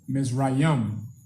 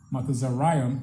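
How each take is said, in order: First: The name is said in its familiar Bible form. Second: The name is said in a longer, older form. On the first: This is the form found in the Bible. "That is how it's there seen in the Bible" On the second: This is the ancient Hebrew pronunciation. "Matazariam in the ancient Hebrew. That's how you pronounce it in the ancient Hebrew"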